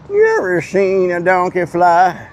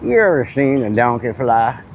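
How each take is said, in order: First: Slow, each word stretched; slow drawn-out. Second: Said in the usual way. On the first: Shown as a demonstration. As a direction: drag the question out slowly.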